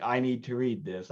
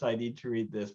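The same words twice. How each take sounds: First: Said in the usual way. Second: I need to read this fading off softer; trailing quiet repeat. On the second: Retold or imitated. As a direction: let the second I need to read this drop and fade. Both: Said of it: "I'm like".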